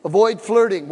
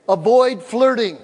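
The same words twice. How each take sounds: First: Flirting pressed with a falling end; stress on flirting. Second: Avoid said slow and firm, louder; stress on avoid. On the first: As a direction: lean on flirting and let it drop. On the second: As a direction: hammer the word Avoid slowly. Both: Shown as a demonstration.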